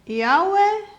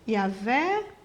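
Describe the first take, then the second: First: The middle consonant is a W sound. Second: The middle consonant is a V sound. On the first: "quando se pensa no W com som de U" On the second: "por causa do W com som de V"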